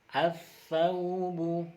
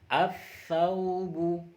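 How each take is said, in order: Both takes have the same delivery.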